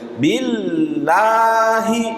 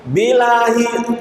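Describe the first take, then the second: First: The doubled l is held long. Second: The l is short and single. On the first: The speaker calls it right. "Jadi sifatnya ada suara mengalir" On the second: The speaker calls it wrong. "Bilahi keliru karena bainiyahnya hilang"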